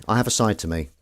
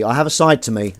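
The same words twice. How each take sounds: First: Said in the usual way. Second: "side" punched louder and higher; stress on side. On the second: Shown as a demonstration. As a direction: lean hard on "side", teasing.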